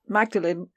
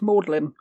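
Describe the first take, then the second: First: The name is said as spelled, Magdalene. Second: The name is said as Maudlin.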